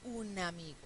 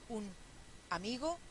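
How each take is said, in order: First: "un amigo" run together as u-na-mi-go; linked words. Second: "un" and "amigo" separated by a clear pause; words kept apart. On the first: Teacher showing the right way, "un amigo" fully linked. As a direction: glide the n of "un" straight into "amigo". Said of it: "decimos un amigo". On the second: Teacher showing the wrong way, "un amigo" split apart. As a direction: say "un", stop, then "amigo". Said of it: "No decimos un amigo". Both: Shown as a demonstration.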